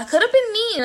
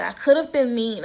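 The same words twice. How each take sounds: First: "I could have been mean" pitched way up; emphatic insistence. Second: Said in the usual way. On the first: Retold or imitated. Repeats her reply with emphasis.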